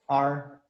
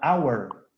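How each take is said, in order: First: The word is unstressed and reduced to a short sound. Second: The word is stressed and fully pronounced, like 'hour'. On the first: This is the normal way with no special emphasis. "Normalmente ese hour no lo acentuamos" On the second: The speaker wants to give it special emphasis. "Si yo pronuncio con cuidado y le pongo énfasis, diría our"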